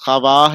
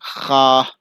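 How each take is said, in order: First: A w sound follows the kh. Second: No w sound follows the kh. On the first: The speaker calls it wrong. "लिखा है" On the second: The speaker calls it right. "पढ़ा जाएगा"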